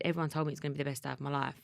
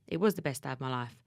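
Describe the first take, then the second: First: Said in the usual way. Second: WAS leaned on, the rest lower; stress on WAS. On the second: Shown as a demonstration. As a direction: press the word was to insist it truly was.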